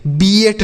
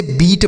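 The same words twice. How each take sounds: First: बीएट split into two syllables, bee-et; wrong pronunciation. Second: बीट as one syllable, long ee; correct pronunciation. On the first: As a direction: say बीएट with an extra vowel before t. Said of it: "बीएट नहीं पढ़ेंगे". (बीएट, ई के बाद अलग स्वर) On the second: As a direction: say बीट with no glide before t. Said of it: "इसे बीट पढ़ेंगे". (बीट, बड़ी ई के साथ एक अक्षर में) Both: Shown as a demonstration.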